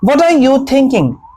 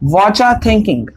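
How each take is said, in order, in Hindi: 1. 'what are you' का हर शब्द अलग-अलग बोला जाता है। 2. 'What are you' मिलकर एक शब्द 'whatcha' बन जाता है।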